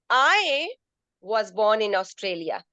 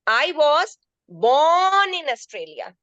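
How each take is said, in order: First: The stress falls on the word I. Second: The stress falls on the word born. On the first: Another person was born somewhere else. "First sentence I put I stressed on I" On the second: The person is a native, not a newcomer. "I am a native of Australia, not a newcomer"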